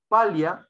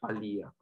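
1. El acento cae en la primera sílaba, pa. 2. El acento cae en la segunda sílaba, lí.

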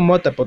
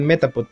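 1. La primera vocal tiene sonido de o. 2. La primera vocal tiene sonido de e. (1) "Yo digo Motapod" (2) "es Metapod"

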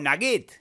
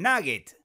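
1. El acento está en la última sílaba. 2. El acento está en la primera sílaba. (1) "Pero sí va a rimar si yo digo nugget" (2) "Porque nugget se acentúa en la A"

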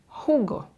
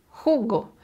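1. El acento está en la primera sílaba. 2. El acento está en la primera sílaba.

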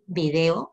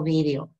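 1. El acento está en la segunda sílaba. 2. El acento está en la primera sílaba. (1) "puedes decirlo así" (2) "si dices vídeo con tilde en la i"

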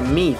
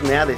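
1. El nombre se lee con sonidos ingleses. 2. El nombre se lee con sonidos de letras españolas. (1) "se pronuncia Mead" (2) "no es Meade"

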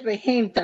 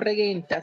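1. La g es suave, como la j. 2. La g es dura, como el sonido gu. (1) "se dice regenta ... Porque no tiene la U" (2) "no regenta"

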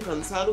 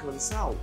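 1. La terminación es 'ado' completo, con la d. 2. La d se pierde, así que la terminación suena como 'ao'.

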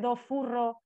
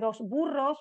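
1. La s y la b se funden en un sonido parecido a f. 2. La s y la b se mantienen separadas como s, b. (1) "se dice dos furros" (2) "en lugar de dos burros"

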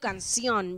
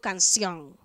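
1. La palabra termina en sonido n. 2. La palabra termina en sonido ng. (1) "yo no digo canción" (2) "pronuncias la N y la G"

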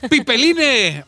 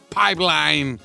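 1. La palabra se lee con los sonidos de las letras españolas. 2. La palabra se dice con pronunciación inglesa.

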